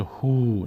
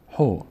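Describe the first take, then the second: First: هو stretched into a long "huuu"; drawn-out vowel. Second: هو as a short "ho"; short vowel. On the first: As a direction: drag out the vowel of هو as the mistake to avoid. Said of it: "نشه هو، نه". («هو» با مصوت کشیده) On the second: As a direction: say هو with one brief vowel, no stretching. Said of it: "یک حرکت کوتاهه". («هو» با حرکت کوتاه) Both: Shown as a demonstration.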